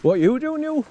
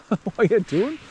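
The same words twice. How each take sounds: First: Puzzled at the dog. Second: Higher, slow, laughing question to the dog; amused drawn-out dog talk. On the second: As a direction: chuckle it out slowly at the silly dog. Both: Real, not acted. Dog acting up.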